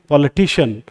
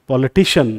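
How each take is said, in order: The two takes are said the same way.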